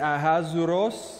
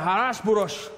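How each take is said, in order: First: The name is said with English pronunciation. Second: The name is said with harsh, throaty Hebrew sounds. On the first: "there's the English way you can say it" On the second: "the Hebrew version where you really have to spit every time"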